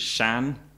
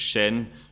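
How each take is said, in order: First: It has an open a-like vowel, northern style. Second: It has a mid e-like vowel, southern style. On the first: "in North Manx, it was Shan" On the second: "In South Manx, it was Shen"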